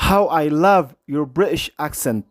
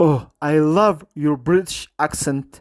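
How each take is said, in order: First: Very slow, stretched words; slow exclamative version. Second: Very slow, stretched words; slow modelled quote. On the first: Teacher shows the exclamative form to students, very slow. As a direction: say the exclamation slowly for learners. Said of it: "ክብል ይኽእል እዩ". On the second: Teacher models the compliment for students, very slow. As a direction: drag each word out for the class. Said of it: "ኢልዋ". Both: Shown as a demonstration.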